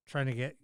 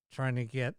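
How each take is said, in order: Both takes have the same delivery.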